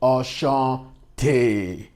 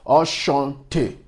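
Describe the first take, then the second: First: The final syllable is stressed. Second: The final syllable is not stressed. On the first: It refers to a female. "The one that is stressed is referring to the female gender" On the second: It refers to a male. "the one with single E that is not stressed"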